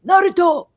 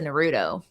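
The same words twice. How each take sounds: First: The name is shouted with strong, excited emphasis. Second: The name is said in a dismissive, unimpressed way. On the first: The speaker really loves the card. "if I really like it, I'll hit it with the Sasuke inflection" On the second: The speaker dislikes the card. "if there's a card I don't like"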